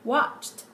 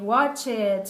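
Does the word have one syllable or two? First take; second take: one; two. First: The ending is a bare t, one syllable. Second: The ending adds an extra syllable, sounding like it. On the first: The speaker calls it right. "instead of saying watched" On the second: The speaker calls it wrong. "we say watch it"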